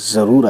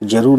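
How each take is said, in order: First: The word begins with a z sound. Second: The word begins with a j sound. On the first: The speaker calls it right. "ज़रूर आएगा" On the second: The speaker calls it wrong. "जरूर नहीं"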